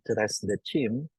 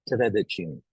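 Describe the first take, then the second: First: An s sound is heard before the de. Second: No s sound is heard before the de. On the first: The speaker calls it wrong. "we don't say" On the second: The speaker calls it right. "there's supposed to be more fluidity in that"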